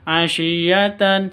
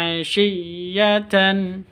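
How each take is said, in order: First: The doubled consonant is said short, not held. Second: The doubled consonant is pressed, held, then released. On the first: The speaker calls it wrong. "jangan di asyiyatan seperti itu, jangan, itu salah" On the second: The speaker calls it right. "Yang betul illa asyiyatan seperti itu"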